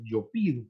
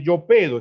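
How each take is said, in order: First: PIDO with I in the first syllable, lower and softer; correct irregular form. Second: PEDO with E in the first syllable, louder than its correction; incorrect regular form. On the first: Teacher gives students the right conjugation, PIDO with an I. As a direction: say PIDO low, the E turned to I. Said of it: "es yo pido". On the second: Teacher demonstrates the rejected conjugation, PEDO with a clear E. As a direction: say PEDO, keeping the root vowel E. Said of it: "no es yo pedo". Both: Shown as a demonstration.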